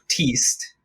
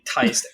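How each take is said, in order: First: The vowel is not an 'eye' sound. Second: The vowel is an 'eye' sound. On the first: This is how the name reads on the page. "when I read it, I read it as Teast" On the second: This is how the author says the name. "just make it a Y if it's Teist"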